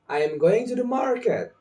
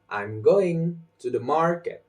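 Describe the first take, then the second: First: Every syllable gets roughly equal stress. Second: Some syllables are stronger than others. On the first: The speaker calls it wrong. "The incorrect version" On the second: The speaker calls it right. "the correct version"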